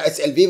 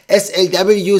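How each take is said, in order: First: The letters are spelled out with German letter names. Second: The letters are spelled out with English letter names.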